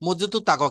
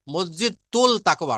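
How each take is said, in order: First: মসজিদুত তাকওয়া with the l turned into a doubled t; assimilated t. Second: মসজিদুল তাকওয়া with the l sounded, said slowly; wrong take, মসজিদুল তাকওয়া with a clear l; wrong form with l. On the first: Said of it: "লেখা আছে মসজিদুত তাকওয়া". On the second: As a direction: pronounce মসজিদুল তাকওয়া keeping the l. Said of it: "মসজিদুল তাকওয়া না". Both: Shown as a demonstration.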